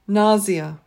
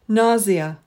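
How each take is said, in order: First: The word is said with a British pronunciation. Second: The word is said with a British pronunciation.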